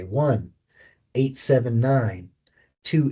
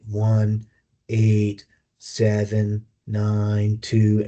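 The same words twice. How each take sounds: First: The digits are grouped into rhythmic chunks. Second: The digits are read evenly with no grouping. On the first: The speaker calls it right. "there's a predictable pattern that we follow" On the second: The speaker calls it wrong. "instead of saying it"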